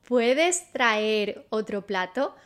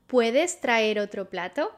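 First: Slowed, careful Spanish for learners; slow model phrase. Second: Said in the usual way. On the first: Shown as a demonstration. Teacher models the Spanish question slowly for students. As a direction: lay it out slowly to be repeated. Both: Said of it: "How do you say that?".

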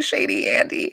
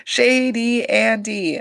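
First: Breathy aside. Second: Mock accusation, drawn out; slow drawn-out tease. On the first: Retold or imitated. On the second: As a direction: stretch out Shady Andy, slowly and pointedly.

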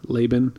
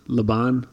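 First: "Laban" with stress on a first syllable, LAY; Laban as LAY-ben. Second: "Laban" with stress on a second syllable, BAHN. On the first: Offering listeners a choice of name, Laban as LAY-ben. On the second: Offering listeners a choice of name, Laban as luh-BAHN. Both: Shown as a demonstration. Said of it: "whatever way you prefer".

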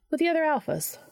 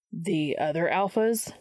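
First: High-voiced, falling aside; offhand afterthought. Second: Slow echo, rising on "alphas"; questioning repeat. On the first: Charlie adds an afterthought to herself, high-pitched aside. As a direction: add it high, as if to yourself. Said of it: "almost as an afterthought to herself added". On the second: Dean repeats Charlie's words, slowly questioning "alphas". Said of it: "Dean repeated". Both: A narrator's reading.

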